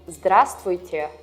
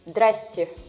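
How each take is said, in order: First: Every syllable of the greeting is pronounced in full. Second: The greeting is clipped, with syllables reduced.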